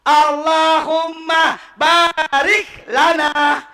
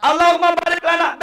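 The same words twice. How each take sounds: First: Barik with short a, slow drawn out; wrong pronunciation. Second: Baarik with long a; correct pronunciation. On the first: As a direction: demo the wrong barik lana. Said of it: "Bukan barik lana". (contoh bacaan salah) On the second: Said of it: "Beda artinya". (bacaan benar baarik) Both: Shown as a demonstration.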